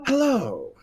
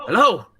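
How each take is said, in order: First: High, refined hello from further away; a cultured call from behind, less forceful. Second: Loud, raised call into the distance; high, loud character hail; Shadarkai calling out. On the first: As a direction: answer politely from a distance, pitched up. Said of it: "you hear very refined". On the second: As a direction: shout a wary challenge to whoever is there. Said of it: "you hear a familiar voice from an Shadarkai". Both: Acted.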